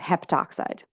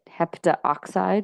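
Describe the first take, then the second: First: The vowel before 'oxide' is dropped. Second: An extra vowel is pronounced before 'oxide'. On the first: The speaker calls it right. "you're actually going to drop the A" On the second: The speaker calls it wrong. "it's sort of a problem to say it heptaoxide"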